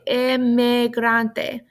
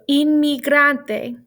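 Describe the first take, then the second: First: The first vowel sounds like "eh". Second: The first vowel sounds like "ee". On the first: The speaker calls it wrong. "you want to say emigrante, but no, no, no" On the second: The speaker calls it right. "The E always makes a high-pitched E sound"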